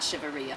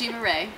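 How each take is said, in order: First: The surname has two syllables, rhyming with pizzeria. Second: The surname has one syllable, sounding like ray. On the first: The speaker calls it wrong. "It's not Shiva Ria. No. She says that sounds like pizzeria" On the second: The speaker calls it right. "No, it's Shiva Ray"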